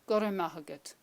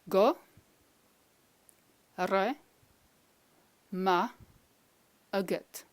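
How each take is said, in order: First: It is said at normal speed, joined together. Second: It is said slowly, syllable by syllable.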